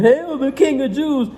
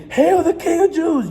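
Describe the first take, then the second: First: High, slow mock praise; mocking hail. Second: High, slow, hammed-up terrified praise; mock-terrified hail. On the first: Soldiers mocking the prisoner, in slow high sneering praise. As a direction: sneer it like a fake salute to a fake king. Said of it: "they doing this in mockery". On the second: Enemies forced to bow, in high hammed-up terrified praise. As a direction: cower as if you finally mean it. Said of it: "you're gonna be scared as hell".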